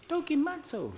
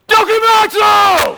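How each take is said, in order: First: It is said weakly and softly. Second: It is yelled loudly and forcefully.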